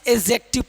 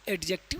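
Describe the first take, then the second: First: No d sound is pronounced before the j. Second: A d sound is pronounced before the j. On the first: The speaker calls it right. "बल्कि इसे एडजेक्टिव पढ़ते हैं" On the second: The speaker calls it wrong. "इसके एडजेक्टिव नहीं पढ़ते हैं"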